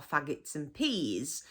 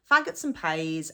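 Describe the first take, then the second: First: Said in the usual way. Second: PEAS said like "pays". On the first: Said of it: "instead of peas". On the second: Shown as a demonstration. Teacher names the local dish, PEAS said "pays". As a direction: turn the vowel of PEAS into "ay". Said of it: "we say peas instead of peas".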